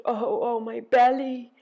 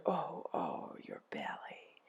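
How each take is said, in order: First: Loud, high groan. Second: Low, whispery slow groan; soft echoed groan. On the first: Ereshkigal groaning over her belly, loud high groan. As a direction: groan it out, swelling on the last word. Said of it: "She groaned". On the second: Helpers echo Ereshkigal's pain, low hushed groan. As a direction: groan it back under the breath. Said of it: "They groaned". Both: A narrator's reading.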